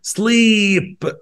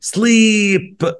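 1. الحركة تُنطق طويلة. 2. الحركة تُنطق طويلة.

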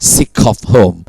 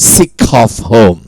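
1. เสียง k เชื่อมไปคำถัดไป 2. เสียง k เชื่อมไปคำถัดไป

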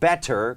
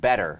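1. ตัว t ตรงกลางออกเสียงชัดเจนและกระชับ 2. ตัว t ตรงกลางเบา ฟังเหมือน d (1) "ก็ไม่ได้ผิดนะฮะ ... แค่มันดูชัดตั้งใจไปนิดนึง" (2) "ก็คือ better ไม่ใช่ better"

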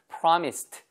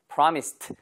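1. 이 단어는 무성음 t 소리로 끝납니다. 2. 이 단어는 무성음 t 소리로 끝납니다.

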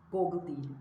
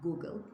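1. İlk sesli harf o gibi ses çıkarır. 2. İlk sesli harf u gibi ses çıkarır. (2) "oradaki O'yu U şeklinde okumamız gerekiyor"

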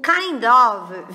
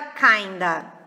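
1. As duas palavras são ditas completas e separadamente. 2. As palavras se fundem, terminando em um schwa fraco. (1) "o kind of vira kinda" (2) "a gente pode juntar na redução do schwa"

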